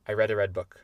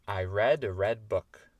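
First: The sentence is said at a very fast speed. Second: The sentence is said at a fast speed. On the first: "Et encore plus vite" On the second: "plus vite"

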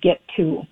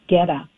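First: The 'to' is said fully with its t. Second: The 'to' is reduced to a weak 'a'. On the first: The speaker calls it right. "instead of get to" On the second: The speaker calls it wrong. "always says get a instead of get to"

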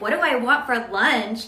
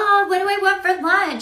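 First: It sounds irritated and suspicious. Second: It sounds warm and friendly.

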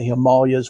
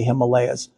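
First: It uses the local Himalayan people's pronunciation. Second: It uses the speaker's own usual pronunciation. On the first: This is how people from the region say it. "They say Himalayas" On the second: This is how the speaker's own community says it. "we say Himalayas"

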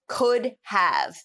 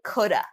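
First: The words are said in full as 'could have'. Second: The words are reduced and linked as 'coulda'.

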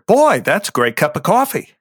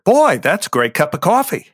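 First: It is voiced as a head-centered character. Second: It is voiced as a head-centered character.

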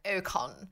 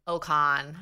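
First: It is said in an exaggerated British accent. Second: It is said in a Canadian accent. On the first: "the British became super British, like" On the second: "the Canadians were more like an Ocon"

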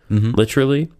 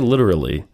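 First: The T is pronounced as a crisp, hard T. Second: The T is pronounced softly, not as a hard T. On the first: The speaker is very serious. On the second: The speaker is only mostly serious.

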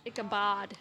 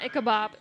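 First: The name ends with a 'd' sound. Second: The name ends with a 'b' sound. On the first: The speaker calls it right. "Like bod" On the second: The speaker calls it wrong. "Not Ichabob"

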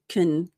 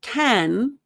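First: The vowel is reduced, nearly gone. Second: The vowel is full and clearly pronounced. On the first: The speaker calls it right. "Americans use the reduced form, It's almost like the A is gone" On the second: The speaker calls it wrong. "it's not can"

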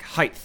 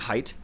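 First: The word ends with a th sound. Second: The word ends with a t sound. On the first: The speaker calls it wrong. "Like I'll say the wrong thing" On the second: The speaker calls it right. "don't you just mean height?"

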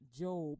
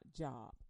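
First: The name is said with a different vowel. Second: The name sounds like the word for employment. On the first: This names the book of the Bible. The speaker calls it right. "it's pronounced Job" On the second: This suggests a book about employment. The speaker calls it wrong. "and not Job"

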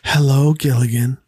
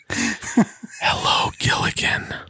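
First: It is said without a whisper. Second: It is said in a seductive whisper. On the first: The speaker calls it right. "she doesn't whisper that quite" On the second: The speaker calls it wrong. "whispers seductively"

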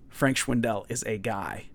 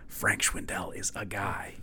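First: It is spoken in a normal full voice. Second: It is spoken in a quiet whisper. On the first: The speaker is not openly claiming this. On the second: The speaker quietly admits believing this.

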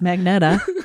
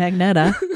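First: The n sound comes before the e, magneta. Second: The same.

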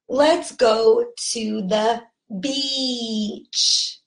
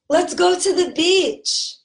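First: The vowel in beach is long and stretched. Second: The vowel in beach is short and clipped. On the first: It names the seaside place. The speaker calls it right. "let's learn how to properly pronounce this word" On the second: It sounds like a rude word. The speaker calls it wrong. "that's not how you say it. When you say it like that, you pronounce it like that, you're actually saying this"

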